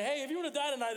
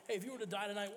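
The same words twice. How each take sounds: First: High, loud mock teen pitch; high, loud mock-eager street pitch; mock eager question. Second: Said in the usual way. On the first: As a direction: ham up the eager kid asking. Teens quizzing Italians, mocked.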